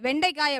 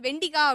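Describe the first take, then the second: First: The second syllable has an 'ai' diphthong. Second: The second syllable has a plain 'i' vowel. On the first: This is the form other people use. "அவங்க வந்துட்டு வெண்டைக்காய் அப்படி சொன்னாங்க" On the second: This is the speaker's own home dialect form. "நான் வந்து அன்னைக்கு சாப்பிடும்போது வெண்டிக்காய் அப்படின்னேன்"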